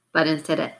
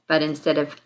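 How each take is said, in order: Both takes have the same delivery.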